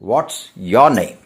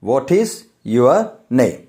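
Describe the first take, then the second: First: The word 'is' is contracted onto 'what'. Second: The word 'is' is said in full. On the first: "പറയുന്നത് വാട്ട്സ് your name" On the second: "എഴുതുന്നത് അങ്ങനെയാണെങ്കിലും"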